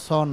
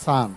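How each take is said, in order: First: সন with a rounded "o" vowel; wrong vowel. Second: সান with an open "a", like sun; correct vowel. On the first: Teacher showing the habit learnt since childhood, mispronounced. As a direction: say সন like "shon", the mistaken way. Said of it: "আসলে উচ্চারণটা সন না". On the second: Teacher correcting how students say son, open vowel. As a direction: say সান exactly like English sun. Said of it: "উচ্চারণ হবে সান". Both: Shown as a demonstration.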